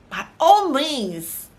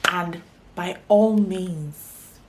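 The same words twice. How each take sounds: First: "by all means" higher, louder, slow and stretched; emphatic repeat. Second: Said in the usual way. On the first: Shown as a demonstration. Urging viewers to stay happy, with big slow emphasis. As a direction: lean hard into "all". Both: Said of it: "emphatic sign-off".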